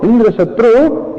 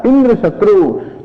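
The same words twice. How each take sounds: First: Slow, with the weight on "Shatru" and a rising finish; stress on Shatru. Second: Slow, with the weight on "Indra" and "Shatru" falling away; stress on Indra. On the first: Teacher showing the correct chant, stress on Shatru. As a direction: lean on "Shatru", say "Indra" lightly. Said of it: "rather than emphasizing the second word Shatru". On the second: Teacher showing the mistaken chant, stress on Indra. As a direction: punch "Indra", let "Shatru" drop. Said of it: "he emphasized the first word". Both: Shown as a demonstration.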